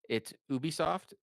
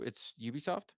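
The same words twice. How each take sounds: First: Ubisoft is said with a French accent. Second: Ubisoft is said with an English accent.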